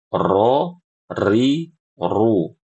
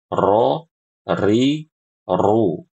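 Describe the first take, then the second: Both takes have the same delivery.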